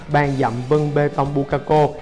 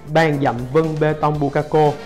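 The two takes are said the same way.

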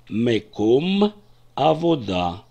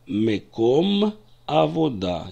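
The two takes are said the same way.

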